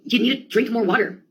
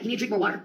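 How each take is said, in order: First: Said in the usual way. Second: Softly voiced, innocent suggestion; gentle, guileless quote of a roommate; innocent advice. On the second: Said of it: "So very innocently, Jamie said".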